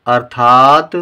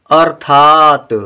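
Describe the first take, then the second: First: Said in the usual way. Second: अर्थात stretched slowly and louder, r clear; slow model reading. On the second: Shown as a demonstration. Teacher reads अर्थात slowly for the class to repeat. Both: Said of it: "आइए पहले हम इन शब्दों को पढ़ें".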